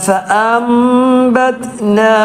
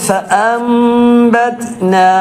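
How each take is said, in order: Both takes have the same delivery.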